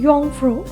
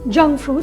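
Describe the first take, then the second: First: The name begins with a Y sound. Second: The name begins with a J sound. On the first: The speaker calls it right. "अच्छे से करो और प्रोनाउंस करो तो कहते हैं योंगफ्रू" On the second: The speaker calls it wrong. "मैं अभी हर जगह जंगफ्रू बोलूँगी"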